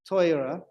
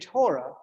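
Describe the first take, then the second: First: The word is said with an Ashkenazi accent. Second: The word is said with an American accent. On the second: "that's an American thing"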